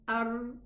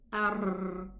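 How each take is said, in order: First: The r is a single short tap. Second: The r is trilled with several taps. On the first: "Let's say without repetition" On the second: "Let us say with repetition the Ra"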